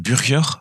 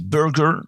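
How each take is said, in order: First: The name is said with a Flemish pronunciation. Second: The name is said with an American pronunciation. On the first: "À la flamande, on dirait" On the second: "À l'américaine, on dit"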